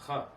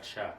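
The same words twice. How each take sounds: First: "cha" said as khah; "cha" with a Hebrew throat h; throaty CH. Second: "cha" said as shah; "cha" as the mistaken shah; wrong sh sound. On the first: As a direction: start "cha" with a breathy kh, never sh. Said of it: "It's not hard to pronounce that cha". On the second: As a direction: pronounce the ch of "cha" like English sh. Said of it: "It's not cha". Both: Shown as a demonstration.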